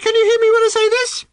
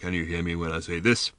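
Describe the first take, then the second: First: It is said at a much higher pitch. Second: It is said in a very deep voice. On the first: "at a much higher pitch" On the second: "in a sepulchrally deep voice"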